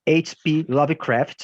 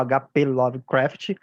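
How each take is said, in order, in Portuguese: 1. O nome é dito com pronúncia inglesa. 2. O nome é dito com pronúncia portuguesa.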